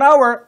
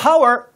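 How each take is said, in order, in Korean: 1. 이 단어는 모음으로 시작해요. h는 묵음이에요. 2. 이 단어는 들리는 h 소리로 시작해요. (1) "호주 사람은 hour라고 발음하지 않아요" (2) "hour라고 발음해요"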